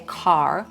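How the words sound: The final R is clearly pronounced. "They'll say car"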